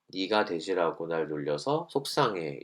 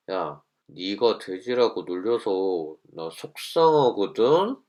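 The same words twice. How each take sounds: First: Slow, even, soft-spoken; calm I-message. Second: Slow, sneering, pointed; snide angry tone. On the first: Teacher models the calm way, softly even. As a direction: say it plainly and calmly. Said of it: "말투를 담담하게". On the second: Teacher shows the wrong tone, slow and sneering. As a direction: drag it out with an edge. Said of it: "이렇게 하면". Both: Shown as a demonstration.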